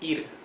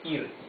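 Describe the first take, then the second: No difference in how they are said.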